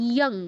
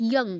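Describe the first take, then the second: The two takes are said the same way.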